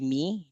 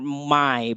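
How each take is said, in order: First: The vowel sounds like 'me'. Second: The vowel is the glide of 'my'. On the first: "people from Ireland and say me" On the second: "M Y is for my"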